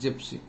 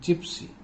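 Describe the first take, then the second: First: It begins with a hard G sound. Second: It begins with a J sound. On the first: The speaker calls it wrong. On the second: The speaker calls it right.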